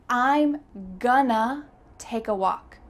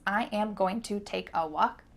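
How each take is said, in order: First: The words are contracted and reduced into fewer syllables. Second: Every word is said fully and separately. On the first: "our first reduction" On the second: "is that the fastest way to say this sentence"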